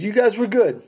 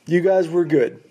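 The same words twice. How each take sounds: First: Faint praise. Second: Said in the usual way. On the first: Retold or imitated. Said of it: "giving us the "you were guys were good". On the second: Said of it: "giving us the".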